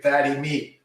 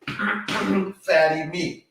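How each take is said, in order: First: Said in the usual way. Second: "Fatty meat" drawn out very slowly, pitched high; stress on Fatty meat. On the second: Shown as a demonstration. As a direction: stretch out "Fatty meat" high and slow, every word weighted. Repeats his key advice.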